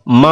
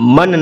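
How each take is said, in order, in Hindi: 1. n ध्वनि नाक में छिपी हुई है। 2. n ध्वनि स्पष्ट बोली जाती है। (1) "म नाक में छिपा कर पढ़ना है" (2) "मन नहीं पढ़ना है"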